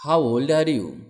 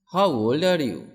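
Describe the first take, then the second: No difference in how they are said.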